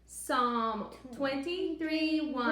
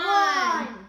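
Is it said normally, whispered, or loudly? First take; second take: normally; loudly. First: It is said in a normal voice. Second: It is said very loudly.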